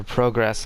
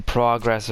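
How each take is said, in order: First: "progress" as PROH-gress; "progress" starting like "pro"; long-o pronunciation. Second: "progress" as PRAH-gress; "progress" starting like "prog"; short-o pronunciation. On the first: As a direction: say progress with a round oh. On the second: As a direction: say progress with an open ah. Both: Shown as a demonstration. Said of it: "progress or progress".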